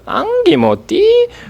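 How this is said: It is said with odd, exaggerated intonation.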